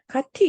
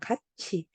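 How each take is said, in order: First: The second syllable begins with a 't' sound. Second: The second syllable begins with a 'ch' sound. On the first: The speaker calls it wrong. "가티 이렇게 안 하잖아" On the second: The speaker calls it right. "아니잖아. 가치"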